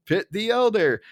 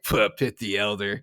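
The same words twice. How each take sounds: First: High insistent mock retort; Barney. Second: Low offhand mock retort. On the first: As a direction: argue it back in a raised pitch. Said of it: "it's basically Barney going". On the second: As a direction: toss it off in a lower voice. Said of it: "Mo is just like".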